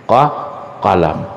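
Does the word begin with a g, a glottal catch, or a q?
q. The word begins with a deep back q sound. This is the standard classical form.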